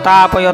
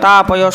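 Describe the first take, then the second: No difference in how they are said.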